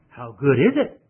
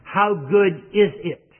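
First: The voice rises at the end like a question. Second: The voice falls at the end like a statement. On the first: It asks how good a timely word might be. "put a question mark there and say" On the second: It states how good a timely word is.

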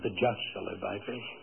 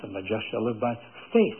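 First: The stress is on the word just. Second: The stress is on the word faith.

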